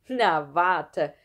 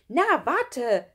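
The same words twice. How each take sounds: First: Loud threat at usual pitch; just you wait. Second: Put-on high, loud girl's threat; just you wait. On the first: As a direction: vow payback loudly, voice kept down. Schlunz vows payback in story. (laute Drohung in normaler Tonlage) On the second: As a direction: vow payback with pitch and volume raised. Nele threatens from girls' room. (laute, hohe Drohung) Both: A narrator's reading.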